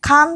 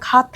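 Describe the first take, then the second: First: The word has an n sound before the t. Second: The word has no n sound before the t. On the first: The speaker calls it wrong. "കാന്ത അല്ല" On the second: The speaker calls it right. "കാത്ത എന്നാണ് പറയുന്നത്"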